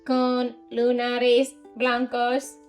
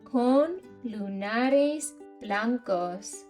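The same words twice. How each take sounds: First: It is said in a put-on robotic voice. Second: It is said in a natural speaking voice.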